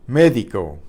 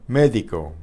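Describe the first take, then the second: The two takes are said the same way.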